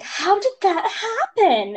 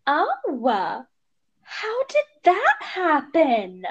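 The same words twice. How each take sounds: First: High, slow, louder mock question; nosy guy. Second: High, slow mock-nosy voice; drawn out like a nosy busybody; nosy stranger. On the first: Mom imitating a prying man at Trader Joe's, high and slow. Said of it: "guy was like". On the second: Mother retelling nosy strangers in a high slow mock voice.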